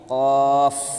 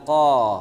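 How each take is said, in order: First: The word ends with a final f sound. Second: The word ends without a final f sound. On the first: The speaker calls it right. "tapi qaf" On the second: The speaker calls it wrong. "bukan qa"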